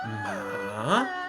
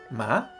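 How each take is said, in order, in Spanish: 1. El tono baja hasta un nivel bajo y luego vuelve a subir. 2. El tono sube de medio a alto. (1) "El tercer tono es ascendente y descendente" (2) "El segundo tono es ascendente"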